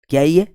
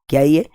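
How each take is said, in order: No difference in how they are said.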